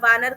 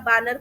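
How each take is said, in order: First: The word begins with a 'v' sound. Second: The word begins with a 'b' sound. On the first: The speaker calls it right. "ब और व, इसमें फर्क ना समझना" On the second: The speaker calls it wrong. "वानर का बानर कर देना"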